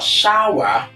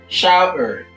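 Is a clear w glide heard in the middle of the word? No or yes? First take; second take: Yes; No. First: A distinct w glide is inserted mid-word. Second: No distinct w glide is inserted mid-word. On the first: The speaker calls it wrong. "It's not shower. By saying shower, ... there is an introduction of a W" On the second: The speaker calls it right. "Shower is the right pronunciation"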